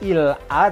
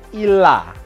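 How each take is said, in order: First: The two words are said separately. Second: The two words are linked together. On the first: The speaker calls it wrong. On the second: The speaker calls it right. "ini bacanya juga serba disambung"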